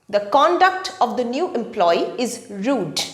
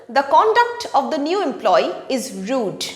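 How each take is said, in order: Both takes have the same delivery.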